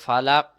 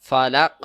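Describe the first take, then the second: No difference in how they are said.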